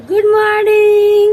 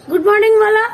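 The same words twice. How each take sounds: First: Put-on slow, stretched গুড morning for a toddler to copy; slow prompt. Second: Said in the usual way. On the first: Shown as a demonstration. Mother modelling the greeting for her little son, slowly. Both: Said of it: "বলো গুড morning".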